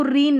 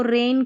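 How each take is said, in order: First: "रीन" with a long ee; long ee between r and n in "रीन"; wrong ee vowel. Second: "रेन" with an ay sound; long ay between r and n in "रेन"; correct ay vowel. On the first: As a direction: misread it as "रीन", rhyming with seen. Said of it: "इसको रीन नहीं". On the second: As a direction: say "रेन" like English rain. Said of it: "इसको रेन करके पढ़ेंगे". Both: Shown as a demonstration.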